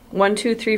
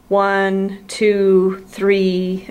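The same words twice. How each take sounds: First: The counting is at an ordinary conversational rate. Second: The counting is at an unnatural, distorted rate. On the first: This gives a true measurement of habitual pitch. The speaker calls it right. "you just have them count about like this" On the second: This gives a skewed measurement of habitual pitch. The speaker calls it wrong. "that's not a normal speech rate"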